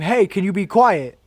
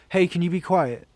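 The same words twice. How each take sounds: First: It is screamed at a loud volume. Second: It is said at a calm, normal volume. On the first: "They they scream" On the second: "like just say"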